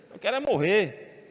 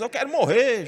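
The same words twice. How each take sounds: First: Said in the usual way. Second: Despairing wish. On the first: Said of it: "Jonas diz". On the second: Retold or imitated. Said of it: "Aí Jonas".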